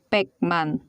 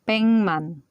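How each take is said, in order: First: The first syllable ends in a k sound. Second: The first syllable ends in an ng sound. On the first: It is read letter by letter as spelled. The speaker calls it wrong. "If you read this one, this is Pekman" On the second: It is the natural spoken form. The speaker calls it right. "the proper pronunciation is Pengman"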